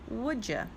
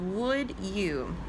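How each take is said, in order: First: The words run together, ending in 'ya'. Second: The words are separate, ending in a full 'you'. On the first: It is a casual, informal way of asking. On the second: It sounds very proper.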